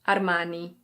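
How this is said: It is said with an Italian pronunciation. "In Italian, it's something like Armani"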